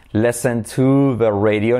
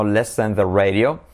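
First: Slow "Listen to the radio", "to" held long; deliberate correct model with a stretched "to"; stress on TO. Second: Said in the usual way. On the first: Shown as a demonstration. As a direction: lean heavily on "to". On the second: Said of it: "no listen the radio".

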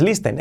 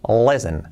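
First: LISTEN with a sounded t and ee; mispronounced listen. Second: LISTEN as "lessen", silent t; correct pronunciation. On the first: Teacher says no es this way, mispronounced listen. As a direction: say "listen" wrongly as "lees-ten". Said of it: "y no es". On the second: Teacher corrects the written reading, correct pronunciation. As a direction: say "listen" with an e-like vowel, falling. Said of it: "y no es listen, es listen". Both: Shown as a demonstration.

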